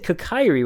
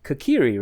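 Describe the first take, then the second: First: The name is said with an anglicized vowel. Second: The name is said with Japanese-style vowels. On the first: This is how it was said in childhood. The speaker calls it wrong. "so I said Kokairi when I was a kid" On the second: This follows the name's Japanese origin. The speaker calls it right. "I guess it's Japanese, which would make it Kokiri"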